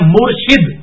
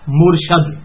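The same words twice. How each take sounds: First: The second syllable has an i vowel. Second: The second syllable has an a vowel. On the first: It means the one who guides. The speaker calls it right. "لفظ ہے مرشد" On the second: It means the one who is guided. The speaker calls it wrong. "یہ لفظ مرشد غلط ہے"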